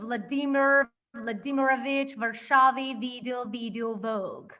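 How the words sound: It is read with an English accent.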